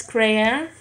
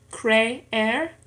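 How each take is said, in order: First: Said in the usual way. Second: "creer" in two beats, cre, er; syllable by syllable. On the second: Shown as a demonstration. Learner showing two syllables in an exercise, "creer" split apart. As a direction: split "creer" with a gap between the two e's. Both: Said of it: "en dos sílabas".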